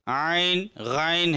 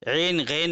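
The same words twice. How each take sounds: First: आइन, गैन with an "aa-in" glide, aa-in, ghaa-in; maruf reading. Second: ऐन, गैन with a single long "e"; one plain "e" vowel in ऐन, गैन; majhul, rejected reading. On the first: Teacher corrects to the accepted names, आइन, गैन in maruf. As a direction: open आइन, गैन on "aa" gliding to "i". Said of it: "Urdu में मारूफ पढ़ा गया है". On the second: Teacher shows what it is not, ऐन, गैन in majhul "e". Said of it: "नहीं है बल्कि". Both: Shown as a demonstration.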